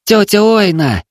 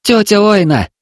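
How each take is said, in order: First: High calling shout. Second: High, loud call for the aunt. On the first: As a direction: call out to the aunt across the yard. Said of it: "закричал он". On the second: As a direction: shout her name again. Boy calling aunt again. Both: Acted.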